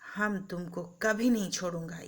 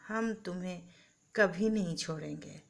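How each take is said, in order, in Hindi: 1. इसे गुस्से और कठोरता से बोला गया है। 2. इसे गर्मजोशी और प्यार से बोला गया है। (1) "यही बात क्रोध से बोलिए" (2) "प्यार से बोलिए"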